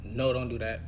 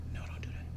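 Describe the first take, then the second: First: Said in the usual way. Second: Unvoiced breathy whisper. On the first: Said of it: "it came out like this". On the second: Shown as a demonstration. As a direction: say it in a thin whisper meant as a shout. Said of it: "Like, I whispered it".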